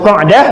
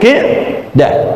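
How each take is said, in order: First: The first vowel is an 'a' sound. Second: The first vowel is an 'i' sound. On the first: This is the form used in the hadith wording. "tapi lafal hadisnya Qa'dah" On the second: This is the linguistically correct form. "Walaupun secara bahasa Qi'dah"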